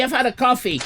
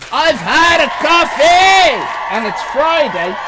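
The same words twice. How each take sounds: First: Said in the usual way. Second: Slow, loud, high, drawn-out exclamation; buzzing from the coffee, shouting it; caffeinated shout. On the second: Shown as a demonstration. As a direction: announce the caffeine buzz to everyone.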